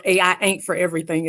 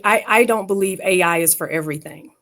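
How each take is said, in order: First: Southern accent. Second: Said in the usual way. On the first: Shown as a demonstration. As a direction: lean into a folksy Southern accent. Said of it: "as we would say in the South". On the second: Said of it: "in my Southern voice".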